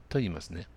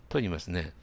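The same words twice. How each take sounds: Both takes have the same delivery.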